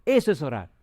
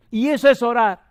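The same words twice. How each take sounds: First: Said in the usual way. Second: "Y eso es orar" shouted higher and louder, stress on "es"; booming refrain. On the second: Acted. Preacher driving home his point to the congregation, loud.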